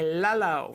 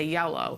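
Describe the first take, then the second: First: The word begins with an L sound. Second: The word begins with a Y sound. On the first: A child's early attempt at the word. The speaker calls it wrong. "They're not even saying it right" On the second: The child has been shaped to say the word fully. The speaker calls it right. "you shape up yellow, so they say yellow"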